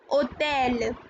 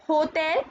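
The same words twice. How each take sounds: First: Hôtel said French, silent h, o-TEL; hôtel with a dropped h and a French o; correct French hôtel. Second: Hotel said the English way, h sounded; English hotel with the h, as the wrong example; hotel the English way, stress on tel with the h. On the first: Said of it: "This is not hotel". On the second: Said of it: "This is not". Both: Shown as a demonstration.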